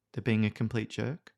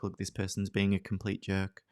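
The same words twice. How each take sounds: First: "jerk" lifted up at the end like a question; "They're being a complete jerk?" with a rising, questioning tune on "jerk"; upward inflection. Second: Said in the usual way. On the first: Shown as a demonstration. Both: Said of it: "with that upward inflection".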